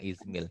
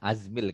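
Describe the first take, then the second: First: The word begins with an 'i' vowel. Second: The word begins with an 'a' vowel. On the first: The speaker calls it wrong. "bukan Izmil" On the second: The speaker calls it right. "ini Azmil kayaknya ya"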